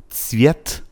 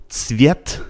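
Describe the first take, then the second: The two takes are said the same way.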